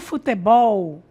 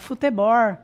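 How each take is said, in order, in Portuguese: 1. Ela é falada com sotaque brasileiro padrão. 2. Ela é falada com sotaque caipira. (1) "como nós temos o costume de falar" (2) "O interiorano lá do Paraná ... fala"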